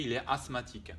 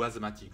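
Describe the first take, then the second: First: « asthmatique » dit « assmatique », s sourd; asthmatique avec s. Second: « asthmatique » dit « azmatique », s voisé; asthmatique avec z. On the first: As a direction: garder un s sifflé dans « asthmatique ». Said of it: "Par contre, je dirais il est asthmatique". (« asthmatique » prononcé « assmatique ») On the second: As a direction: voiser le s de « asthmatique » en z. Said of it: "Ou asthmatique". (« asthmatique » prononcé « azmatique ») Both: Shown as a demonstration.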